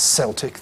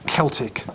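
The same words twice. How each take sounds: First: It begins with a soft s sound. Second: It begins with a hard k sound. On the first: It names a football team. The speaker calls it wrong. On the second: It names the ancient languages and peoples. The speaker calls it right.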